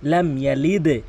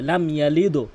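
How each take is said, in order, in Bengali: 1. শেষের d নিচের দিকে একটি প্রতিধ্বনি দিয়ে শেষ হয়। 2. শেষের d সমতলভাবে থামে, কোনো প্রতিধ্বনি থাকে না। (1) "নিচের দিকে সাউন্ড হবে" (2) "অধিকাংশ কি বলে লাম ইয়ালিদ"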